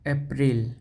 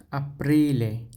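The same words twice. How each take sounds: First: Said in the usual way. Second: আপ্রিলে starting with an open a, a-PRI-le; Italian Aprile. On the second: Shown as a demonstration. Teacher shows Italian April begins with a. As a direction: model আপ্রিলে, a not e. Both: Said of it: "এখানে এটা হচ্ছে আয়ের উচ্চারণ হবে".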